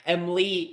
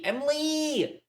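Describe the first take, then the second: First: Said in the usual way. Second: Much higher, drawn-out excited call of the name. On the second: Real, not acted. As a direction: sing the name out with delight at seeing her.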